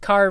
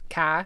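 First: The r is pronounced at the end. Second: It is said in a Boston accent, dropping the r.

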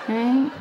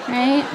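No difference in how they are said.

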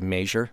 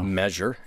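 First: It is said with a Kansas regional accent. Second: It is said in a neutral, non-regional way. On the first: The speaker calls it wrong. "I have worked so hard to squash the way I pronounce other words" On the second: The speaker calls it right. "Measure instead of"

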